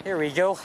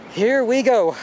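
First: Said in the usual way. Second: Loud, high and thrilled; excited shout. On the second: Real, not acted. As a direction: belt it out at the view. Excited cry at the view.

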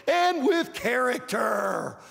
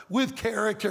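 First: Shouted climax of the sermon list; preaching shout. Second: Said in the usual way. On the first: Real, not acted. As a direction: hammer home the final word of the list.

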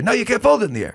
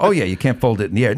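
First: Much higher voice, mock Larry insisting; Larry impression. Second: Said in the usual way. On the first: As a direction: pitch way up and argue the point. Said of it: "but he's like". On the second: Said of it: "but I'm going".

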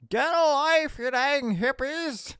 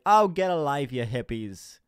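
First: High mock yell, drawn out; yelling out the window. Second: Offhand jab, starting loud then dropping; casual jeer. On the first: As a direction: yell it to passing protesters from a car. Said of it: "just yell out the window". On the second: Pretend. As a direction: toss it off dismissively, no real yell. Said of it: "Whereas if I just like".

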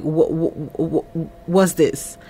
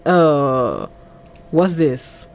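First: Low, soft stuttered question; retold stammer. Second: Low, hesitant question; retold puzzlement. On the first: Man thrown by what he is shown, mock stammering. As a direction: stumble repeatedly on the first word, quietly. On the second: Man reacting to what he is shown, mildly puzzled. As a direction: draw out a low 'uh' before asking.

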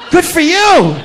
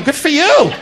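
First: Higher, laughing "Good for you"; amused, higher "Good for you"; laughing repeat. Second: Said in the usual way. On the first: Acted.

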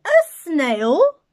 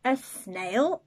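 First: Much louder, higher, aghast; shocked teacher. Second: Said in the usual way. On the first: Acted. Shocked teacher spotting the snail on the board, aghast. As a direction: gasp it out in disbelief.

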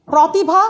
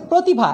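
First: প্রতিভা as "prawtibha", higher and louder; as-written vowel. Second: প্রতিভা as "protibha"; closed "o" after pr in প্রতিভা; correct spoken vowel. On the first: Teacher reads the spelling, প্রতিভা with open "aw". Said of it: "উচ্চারণ হচ্ছে". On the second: Teacher adds an o sound, প্রতিভা with closed "o". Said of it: "একটা ওকার দিয়ে". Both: Shown as a demonstration.

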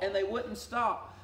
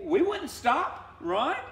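First: Said in the usual way. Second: Mock defiant. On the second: Preacher mocking stubborn refusal.

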